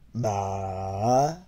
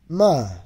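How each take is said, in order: First: The syllable is said with the third tone. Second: The syllable is said with the fourth tone.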